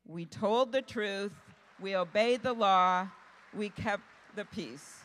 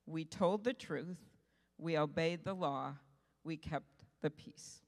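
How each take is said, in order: First: "We told the truth, we obeyed the law" loud and weighty, then "we kept the peace" slow and easing; emphatic repeat. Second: Said in the usual way. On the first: Real, not acted. Speaker repeats Mondale's quote to journalists, emphatic on "truth", "law" and "peace". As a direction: drive home "truth", "law" and "peace", each phrase set apart by a pause.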